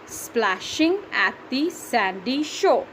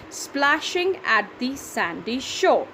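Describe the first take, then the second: First: Splashing at the sandy shore drawn out slowly again; slow measured reading for counting; slow syllable reading. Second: Splashing at the sandy shore said slowly, every syllable marked; slow syllable reading. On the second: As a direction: read slowly so the count is clear. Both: Shown as a demonstration. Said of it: "That's seven".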